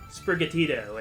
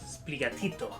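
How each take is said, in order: First: It is said with an English accent. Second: It is said with a Spanish accent. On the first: The speaker calls it wrong. "it's like" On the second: The speaker calls it right. "Spanish-speaking person ... he goes, uh-uh"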